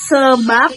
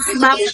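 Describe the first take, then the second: First: The vowel in the first syllable is pronounced. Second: The vowel in the first syllable is dropped.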